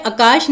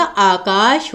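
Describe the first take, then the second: First: आकाश clipped to "akaash"; short first vowel. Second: आकाश drawn out as "aakaash", slowly; long first vowel. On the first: Teacher showing the misspelling, आकाश starting on short "a". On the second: Teacher correcting students, आकाश with long opening "aa". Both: Shown as a demonstration. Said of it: "आकाश होता है".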